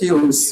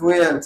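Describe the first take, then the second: First: It is said with an English-style pronunciation. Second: It is said with a Bengali-style pronunciation. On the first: The speaker calls it right. "ইংলিশের ফিউলস" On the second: The speaker calls it wrong. "বাংলার ফুয়েলস"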